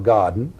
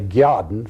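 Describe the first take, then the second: First: The g is said plainly, with no glide. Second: The g is followed by a y-like glide. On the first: This is the ordinary pronunciation. "for garden" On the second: This is an old Tidewater Virginia pronunciation. "My mother used to say "gyarden""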